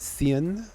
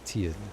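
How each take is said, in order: First: The name begins with a soft TH sound. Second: The name begins with a hard T sound. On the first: "with a T H on the front" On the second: "T as in like a hard sound"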